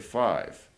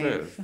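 First: The vowel sounds like the word I. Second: The vowel is short, like in have. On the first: The speaker calls it right. "We say five. So that's the sound of I" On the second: The speaker calls it wrong. "we don't say fiv. Like we say have"

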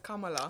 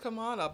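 First: The name is said in a non-anglicized way. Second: The name is said in an anglicized way. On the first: The speaker calls it right. "but it's Kamala" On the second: The speaker calls it wrong. "I thought it was Kamala"

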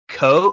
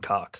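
First: The final x sound is left silent. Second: The final x sound is clearly pronounced. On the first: It is meant to sound French and refined. "he tried to pronounce it co, like it was French, so he didn't pronounce the fucking X" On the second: It is the ordinary everyday pronunciation. "people calling him Cox"

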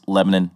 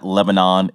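First: It uses the local Tennessee pronunciation. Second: It uses the general, outside pronunciation. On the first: "it's Lebanon" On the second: "it's not Lebanon"

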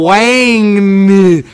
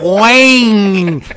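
First: The name is drawn out slowly. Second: The name is said at normal speed.

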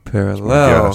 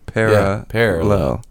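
First: The stress falls on a later syllable. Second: The stress falls on the first syllable. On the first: This is how one particular person says it. "He emphasizes the second half" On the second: This is the usual way to say it. "the emphasis in the word parallel, meaning two lines that never intersect, is at the P-A-R-A"

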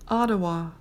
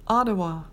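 Both takes have the same delivery.

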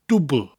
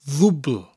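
First: The word begins with a 'd' sound. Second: The word begins with a 'th' sound. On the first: "We start with a dub" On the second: "we mutate it with a double D sound to dwbl"

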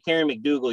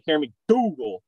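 First: McDougal is said plainly, without extra emphasis. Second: McDougal is said with strong extra emphasis. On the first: The speaker calls it wrong. "you can't just say Karen McDougal" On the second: The speaker calls it right. "You got to put the emphasis on McDougal"

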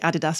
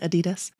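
First: It is said with a British pronunciation. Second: It is said with an American pronunciation.

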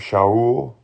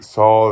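First: The name begins with an SH sound. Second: The name begins with a plain S sound. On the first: The speaker calls it right. "more like Shaul" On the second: The speaker calls it wrong. "we actually have a wrong pronunciation"

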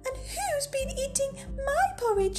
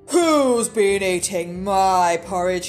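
First: It is said in a tiny, squeaky voice. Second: It is said in a deep, gruff voice.

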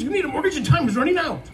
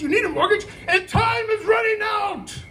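First: The ending is said without exaggeration. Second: The ending is said with heavy exaggeration.

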